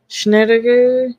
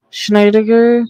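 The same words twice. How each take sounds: First: "Schneider" said as SHNAT-uh-ker; "Schneider" in three syllables, short first vowel; guessed pronunciation. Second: "Schneider" said slowly as SHNY-duh-ker; "Schneider" drawn out, first syllable rhyming with eye; alternative pronunciation. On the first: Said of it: "I'm, like, thinking in my head". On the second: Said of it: "know which way". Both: Shown as a demonstration.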